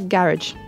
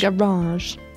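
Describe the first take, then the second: First: It is said with a British accent. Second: It is said with an American accent.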